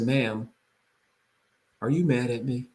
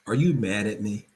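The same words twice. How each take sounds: First: Soft, gentle question to an angry caller; calm concerned tone. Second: Calm concerned tone. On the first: Realtor calming an upset appraiser on the phone, gently. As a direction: ask it calmly, reflecting her anger back. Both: Shown as a demonstration. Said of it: "Notice the tone, the reflection".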